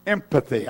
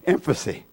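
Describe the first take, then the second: First: Said in the usual way. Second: "empathy" fumbled as "em-fuh-see"; mispronounced word. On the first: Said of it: "I got it now". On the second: Real, not acted. Preacher stumbling over the name of a grace, "empathy" said "em-fuh-see". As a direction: say "empathy" with f and s sounds, like "emfasy". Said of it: "I'm not saying it right".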